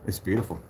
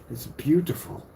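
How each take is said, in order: First: Said in the usual way. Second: Lightly put-on English accent, higher. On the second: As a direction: repeat it with a hint of an English accent. Repeats it aping English accent.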